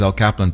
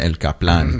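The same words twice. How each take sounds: First: The name is said with an English pronunciation. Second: The name is said with a Spanish pronunciation. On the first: "my name's El Kaplan" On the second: "pero en Mexico me dicen El Kaplan"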